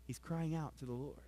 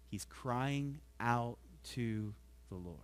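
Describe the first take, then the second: First: Said in the usual way. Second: Drawn out, softer, slow; a slow hushed plea on "He's crying out". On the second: Shown as a demonstration. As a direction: let each word of "He's crying out to the Lord" hang, slow and hushed.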